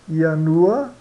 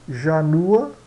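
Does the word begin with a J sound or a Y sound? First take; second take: Y sound; J sound. First: The word begins with a Y sound. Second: The word begins with a J sound.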